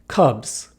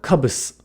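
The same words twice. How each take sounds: First: The final sound is a buzzing Z. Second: The final sound is a hissing S. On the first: The speaker calls it right. "pronounced more like a Z" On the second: The speaker calls it wrong. "than an S"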